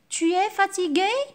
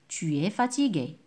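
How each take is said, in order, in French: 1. Cela se dit avec une intonation interrogative. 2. Cela se dit avec une intonation déclarative. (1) "J'ai changé seulement l'intonation" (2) "c'est-à-dire une phrase déclarative"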